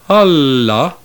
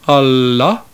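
First: The accent falls on the first syllable. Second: The accent falls on the second syllable. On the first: The word means other things. "accented on the first syllable" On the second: The word means but. "accented on the second syllable"

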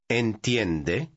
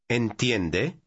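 First: The voice rises at the end. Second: The voice rises at the end.

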